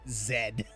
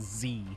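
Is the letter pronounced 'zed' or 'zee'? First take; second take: zed; zee. First: The letter is pronounced as zed. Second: The letter is pronounced as zee. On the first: It is the British way of naming the letter. The speaker calls it wrong. "It's definitely not Zed" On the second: It is the American way of naming the letter. The speaker calls it right. "It's definitely Z"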